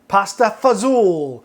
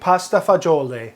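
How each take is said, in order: First: It is pronounced the Long Island way. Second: It is pronounced the standard Italian way.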